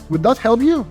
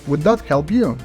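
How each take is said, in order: First: The pitch climbs upward through the question. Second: The pitch stays level, lifting slightly at the end. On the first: The speaker is seeking approval. The speaker calls it wrong. "This is an upward inflecting tonality" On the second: The speaker offers reassurance and respect. The speaker calls it right. "we're staying level"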